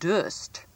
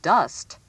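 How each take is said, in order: First: The vowel is a different, non-standard sound. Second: The vowel is the standard short u sound. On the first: The speaker calls it wrong. "not dust" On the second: The speaker calls it right. "I should have said dust"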